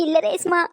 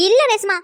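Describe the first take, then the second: First: Said in the usual way. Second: இல்ல Reshma blurted louder and higher; sudden denial. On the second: Acted. Grandma hastily correcting herself to Resma, louder. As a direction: jump in fast with the இல்ல.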